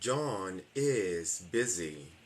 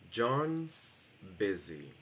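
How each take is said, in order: First: John and is are two separate full words. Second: Is shrinks to an s joined onto John.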